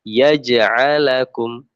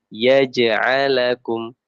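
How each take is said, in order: No difference in how they are said.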